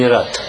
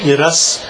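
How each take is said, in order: First: The word ends with a t sound. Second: The word ends with an s sound. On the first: The speaker calls it wrong. "а не Ират" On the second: The speaker calls it right. "Когда читаешь Сидур, то говоришь Ирас"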